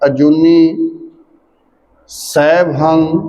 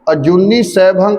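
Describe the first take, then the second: First: There is a pause after the first word. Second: The two words run together without a break. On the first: The speaker calls it right. "अजूनी ते विश्राम देना है" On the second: The speaker calls it wrong. "कट्ठा पाठ करदे हो"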